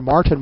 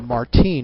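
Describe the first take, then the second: First: The name is said with an English pronunciation. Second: The name is said with a Spanish pronunciation.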